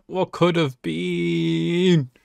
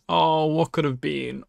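First: Very slow, dragged-out wistful repeat; slow wistful echo. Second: Said in the usual way. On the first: Real, not acted. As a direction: stretch it out, mourning what was lost. Echoes own line, drawn out.

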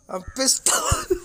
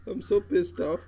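First: Much higher, slow, strained squeal; squealing rant. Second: Said in the usual way. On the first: Real, not acted. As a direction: screech it in mock outrage, slowly. Gamer angry over card pulls.

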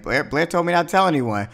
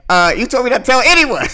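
First: Pitched-up imitation of an excuse; retold defensive excuse. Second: High, loud mock-outraged retort; mad, imitated. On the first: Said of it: "she was like". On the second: Dan gets mad over the secret, loud mock outrage. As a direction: throw it back in hammed-up anger. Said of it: "when he was getting all mad".

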